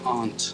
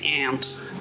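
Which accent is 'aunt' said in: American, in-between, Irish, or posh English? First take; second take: in-between; American. First: It is said halfway between two accents. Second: It is said in an American accent. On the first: "I go aunt" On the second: "Americans say aunt"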